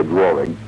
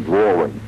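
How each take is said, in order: First: "drawing" with an intrusive r, like draw-ring; regional pronunciation. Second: Said in the usual way. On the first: Retold or imitated. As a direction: say "drawing" the local way, adding an r in the middle. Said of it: "as they say out there".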